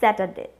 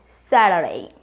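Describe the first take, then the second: First: It is said with a non-American accent. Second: It is said with an American accent. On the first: "We all pronounce Saturday" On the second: "we can pronounce this very smartly called Saturday. ... Is American accent"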